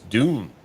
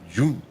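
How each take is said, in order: First: The word begins with a plain D sound. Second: The word begins with a J sound. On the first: The speaker calls it right. "But it's Dune" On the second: The speaker calls it wrong. "some people pronounce it like it's a D J"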